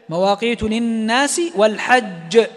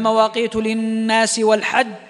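First: The final j is released with an audible bounce. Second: The final j is held shut with no release. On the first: The speaker calls it right. "فنأتي بالقلقلة. والحج، مواقيت للناس والحج، هكذا" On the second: The speaker calls it wrong. "ما يمكن تسمع الجيم، انحبس الصوت وانحبس الهواء النفس"

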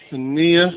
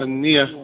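First: The y sound is doubled and held longer. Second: The y sound is single and short. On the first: "بالتشديد" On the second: "بالتخفيف"

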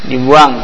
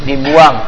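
The two takes are said the same way.

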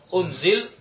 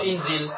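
First: The word begins with a u sound. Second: The word begins with an i sound. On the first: The speaker calls it wrong. "Unzil atau inzil?" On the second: The speaker calls it right. "Dibaca inzil"

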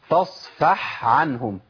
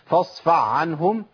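First: The breathy h sound is clearly kept. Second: The h becomes an ayn and merges. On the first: The speaker calls it right. "اسمع كده، ... ده الصح" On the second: The speaker calls it wrong. "ابدلت الحاء بعين على طول، ادغمت"

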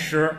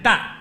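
First: It is read shí, the everyday reading. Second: It is read dàn, the grain-measure reading. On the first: It means stone. "石头的石……在称粮食的时候不念石" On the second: It is a unit for weighing grain. "一担两担的担"

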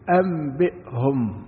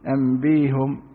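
First: The word is said with a glottal stop. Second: The word is said without a glottal stop. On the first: This is the reading that keeps the hamza. "إلا في أنبئهم ونبئهم ونبئنا" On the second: This is the reading that drops the hamza. "ويترك أبو عمرو كلها... يقولوا إيه؟"

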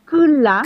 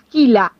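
First: The first vowel sounds like 'u'. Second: The first vowel sounds like 'i'. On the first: The speaker calls it right. "es kula" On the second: The speaker calls it wrong. "que no es kila"

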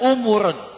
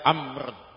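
First: It begins with u and has three syllables. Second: It begins with a and has two syllables. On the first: "Yang kedua dibaca umuran" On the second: "Yang ketiga dibaca amran"

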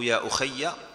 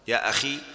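First: Said as ukhayy, with a doubled final y. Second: Said as akhi, with a light final y. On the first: "وروي بضم الهمزة وفتح الخاء وتشديد الياء" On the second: "روي بفتح الهمزة وكسر الخاء وتخفيف الياء"

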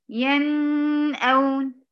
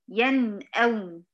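First: The n sound is held too long. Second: The n sound has its normal length. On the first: The speaker calls it wrong. "ليه بنزود؟" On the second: The speaker calls it right. "هي على طول ينأون"

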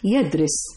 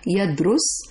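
First: The vowel after the r is not u. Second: The vowel after the r is u. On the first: The speaker calls it wrong. "وليس يدرس" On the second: The speaker calls it right. "ضم حرف الراء لنقول يدرس"

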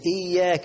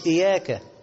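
First: The y sound is held long and doubled. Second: The y sound is short and single. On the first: The speaker calls it right. "من مواطن التشديد" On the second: The speaker calls it wrong. "مش إياك"

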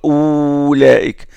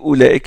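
First: The first vowel is drawn out long. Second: The first vowel is kept short. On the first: The speaker calls it wrong. "on dit pas Oulaik" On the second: The speaker calls it right. "on ne prolonge pas la hamza de Oulaik"

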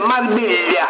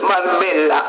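First: The double L sounds like a Y. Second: The double L sounds like an L. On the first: The speaker calls it right. "si dice Marbiglia, ya, dice, perché la L, la doppia L in Spagna si dice ya" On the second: The speaker calls it wrong. "non si dice Marbella"

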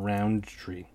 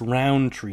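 First: The name is said with a d sound. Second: The name is said without a d sound. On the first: The speaker calls it wrong. "not Roundtree" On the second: The speaker calls it right. "Leave out the D"

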